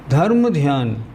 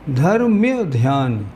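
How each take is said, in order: First: The first word ends in a plain 'ma' sound. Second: The first word ends in a 'mya' sound. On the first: The speaker calls it wrong. "जैसे मान लो धर्म ध्यान" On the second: The speaker calls it right. "सही शब्द है धर्म्य"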